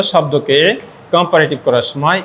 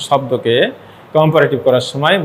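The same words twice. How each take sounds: The two takes are said the same way.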